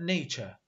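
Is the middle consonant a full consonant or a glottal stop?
full consonant. The middle consonant is fully pronounced. "هاي الكلمة تقرأ نيتشا"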